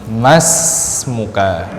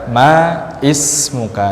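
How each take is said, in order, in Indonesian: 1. Ma langsung masuk ke smuka tanpa i. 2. Bunyi vokal i dibaca sebelum smuka. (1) "Langsung dibaca ke huruf berikutnya" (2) "Jangan kita baca ma is muka"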